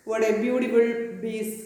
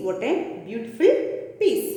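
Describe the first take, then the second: First: Put-on shopkeeper's German accent, "piece" as "bees". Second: Said in the usual way. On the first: Shoemaker admiring the leather, German accent. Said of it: "this is the accent of German". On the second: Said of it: "That means".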